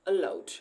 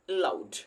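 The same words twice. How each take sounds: First: The first syllable carries little stress. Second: The first syllable carries little stress.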